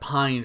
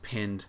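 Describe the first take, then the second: First: The vowel is long, like in 'pine'. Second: The vowel is short, like in 'pin'. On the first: The speaker calls it wrong. "I pronounced that pine for like a good like 6 months" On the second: The speaker calls it right. "wait a minute, it's pinned"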